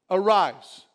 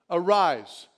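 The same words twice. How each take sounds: The two takes are said the same way.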